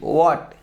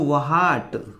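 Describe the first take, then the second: First: No h sound is heard after the w. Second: An h sound is heard after the w. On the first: The speaker calls it right. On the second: The speaker calls it wrong. "आप बोलते इसको व्हाट, ये नहीं"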